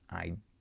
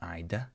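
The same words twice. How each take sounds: First: The final D is held without release. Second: The final D is fully released. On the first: The speaker calls it right. "stopped D ... just I'd" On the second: The speaker calls it wrong. "so it's not I'd"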